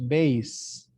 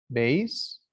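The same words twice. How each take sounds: First: "bass" with a long ay vowel, slowly; bass said as base. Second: "bass" with a short a, as in fish. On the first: Teacher to class, musical instrument bass. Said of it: "is pronounced". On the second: Teacher to class, fish name bass. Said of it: "when I say bass". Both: Shown as a demonstration.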